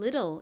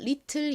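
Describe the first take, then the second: First: The middle consonant is a soft flap. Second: The middle consonant is a clear t sound. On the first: "미국식 원어 발음으로는 little 이라고 발음하는" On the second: "한국식으로는 little 이라고 표기하고"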